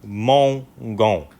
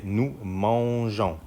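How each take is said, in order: First: "mangons" with a hard g sound; "nous mangons" with a hard g; wrong hard g. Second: "nous mangeons" slowly, with a soft j sound; slow model "mangeons", soft j and nasal ending; correct soft g. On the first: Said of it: "We cannot say nous". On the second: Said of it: "We say". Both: Shown as a demonstration.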